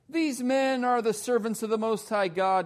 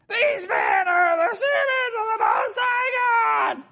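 First: It is said in a calm, ordinary voice. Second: It is said in a shrill, squealing voice.

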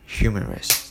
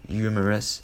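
First: It is said with an American English accent. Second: It is said with a Korean-style accent. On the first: The speaker calls it right. "this is the correct pronunciation" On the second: The speaker calls it wrong. "so that's the Konglish"

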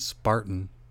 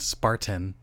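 First: The middle T is a glottal stop. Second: The middle T is clearly released.

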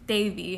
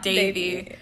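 First: The name starts with a soft, TH-like D. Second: The name starts with a hard, plain D. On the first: The speaker calls it right. "the D turns into a TH in our language" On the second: The speaker calls it wrong. "not Davy"

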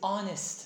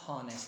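First: The word begins with a vowel, no h sound. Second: The word begins with an audible h sound. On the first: The speaker calls it right. "the word is honest ... The H is silent" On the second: The speaker calls it wrong. "not honest"

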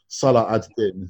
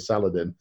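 First: The name is said in full, three parts. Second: The name is run together into one word.

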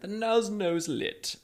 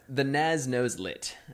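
First: It is said in a British accent. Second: It is said in the speaker's usual accent.

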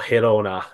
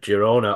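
First: The name is pronounced the Spanish way. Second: The name is pronounced the English way.

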